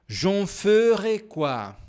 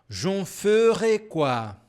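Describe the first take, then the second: No difference in how they are said.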